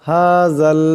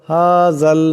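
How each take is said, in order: The two takes are said the same way.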